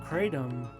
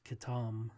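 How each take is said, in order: First: The first syllable sounds like 'cray'. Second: The first syllable has no 'cray' sound. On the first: This is how it is said in the United States. "kratom has been the common pronunciation in the United States" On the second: This is how it is said in Malaysia. "even in Malaysia, it's it's it's Katam, so it's it's a different pronunciation"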